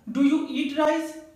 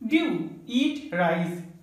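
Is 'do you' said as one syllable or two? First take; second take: two; one. First: 'Do you' is said fully as two syllables. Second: 'Do you' is blended into one short syllable.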